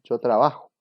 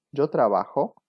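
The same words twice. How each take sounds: First: "Yo trabajo" said as a plain statement, louder, no question lift; statement tune. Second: "Yo trabajo" asked as a question, pitch rising; question tune. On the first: Teacher contrasting for students a plain statement tune. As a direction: state "Yo trabajo" as a flat affirmation. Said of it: "que es una afirmación". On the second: Teacher showing students a spoken question with a rising tune. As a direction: lift the end of "Yo trabajo" into a question. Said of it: "con el tono de voz ya puedo indicar". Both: Shown as a demonstration.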